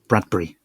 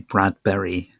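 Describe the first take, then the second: First: The name is said merged into one word. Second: The name is said as separate parts. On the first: This is how it is said in the UK. "We sort of merge it all together" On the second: This is not how it is said in the UK. "we don't say Bradbury"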